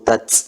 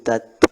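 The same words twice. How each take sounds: First: The final t hisses with much air, like s. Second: The final t has only a light puff of air. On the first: The speaker calls it wrong. "ini contoh yang salah" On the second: The speaker calls it right. "Sedikit saja anginnya"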